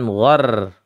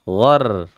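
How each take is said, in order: No difference in how they are said.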